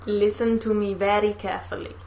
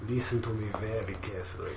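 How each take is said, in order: First: A tentative copy of a Russian accent, a little softer; copied Russian accent. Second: Low and much softer, demonstrating a Russian accent; Russian accent model. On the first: Friend copying the villain line, tentative Russian accent. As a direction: try to echo the Russian accent. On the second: Teaching a friend the line, low Russian accent. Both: Shown as a demonstration. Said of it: "say it line by line so I can copy you".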